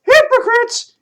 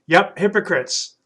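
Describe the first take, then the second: First: High, loud puppet asking "Hypocrites?". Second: Said in the usual way. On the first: Acted. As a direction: puppet echoes "Hypocrites?" with surprise. Puppet Troy repeats the word.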